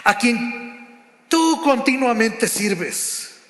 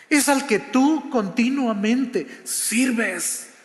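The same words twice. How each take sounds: First: "a quien tú continuamente sirves" slowly, with a mild sad weight. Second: "continuamente" leaned on and drawn out, whole phrase slow; slow down and weigh "es al que tú continuamente sirves"; stress on continuamente. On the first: Acted. The king to Daniel in the den, slow, touch of sadness. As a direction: let the king's line sink, unhurried and sorrowful. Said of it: "con voz triste". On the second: Shown as a demonstration. Preacher stressing to the congregation that Daniel served continually, slow emphasis. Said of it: "no dice al que le sirves a veces".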